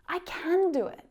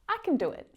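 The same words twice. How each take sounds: First: The word can is full and stressed. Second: The word can is reduced and unstressed. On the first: "when we really want to emphasize that it's true" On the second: "often reduced when spoken quickly"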